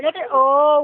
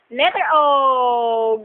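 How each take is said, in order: First: Said in the usual way. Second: "Letter O" drawn out slowly; slow teaching voice. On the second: Shown as a demonstration. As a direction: spell it out slowly for a toddler. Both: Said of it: "mother teaching letters to baby".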